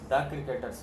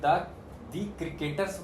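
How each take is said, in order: First: The word 'the' is said with a short 'uh'. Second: The word 'the' is said with a long 'ee'. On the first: The speaker calls it right. "द cricketers होगा" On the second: The speaker calls it wrong. "अब हम अगर द दी cricketers बोलते हैं तो नहीं चलेगा"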